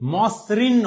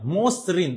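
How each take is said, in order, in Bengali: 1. প্রথম স্বরধ্বনিটি একটি খোলা 'a' ধ্বনি। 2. প্রথম স্বরধ্বনিটি একটি বদ্ধ 'o' ধ্বনি। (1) "নয়" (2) "প্রথম বর্ণের উচ্চারণটা ও এর মতো হয়েছে"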